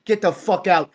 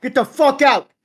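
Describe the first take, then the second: First: Said in the usual way. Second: Second take much higher and louder; mock yell. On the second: Guest repeats the line as a high mock yell. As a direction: escalate into a hammed-up shout. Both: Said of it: "I'm like".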